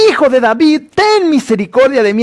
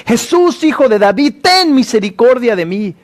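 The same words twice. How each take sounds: First: A higher pleading cry; crying louder. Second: A high crying-out plea, pitched well up. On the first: Blind man calling out over those silencing him, pleading cry. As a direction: keep begging, calling out over the crowd. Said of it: "él clamaba mucho más fuerte". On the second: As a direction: call out to him, begging. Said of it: "comenzó a dar voces". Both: Retold or imitated.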